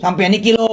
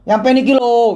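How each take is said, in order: First: A lighter Javanese medok on "Sampai niki lo"; Javanese-flavoured "Sampai niki lo"; mild mock Javanese accent. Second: Thick Javanese medok on "Sampai niki lo"; mock Javanese medok accent. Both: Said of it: "medok gitu loh".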